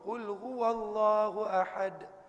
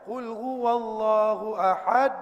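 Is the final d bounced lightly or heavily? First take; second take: lightly; heavily. First: The final d gets a light, small bounce. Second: The final d gets a heavy, exaggerated bounce. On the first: The speaker calls it right. "Nabi sebut ahad" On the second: The speaker calls it wrong. "Nabi tak buat macam tu"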